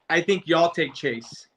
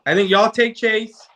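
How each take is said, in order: First: Said in the usual way. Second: Higher and louder, with "take" punched; emphatic repeat. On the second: Real, not acted. To his co-host, pressing the pick, louder and higher with "take" stressed. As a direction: hammer the point home on "take".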